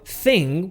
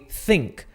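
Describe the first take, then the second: First: It ends with a plain ng sound. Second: It ends with an added k sound.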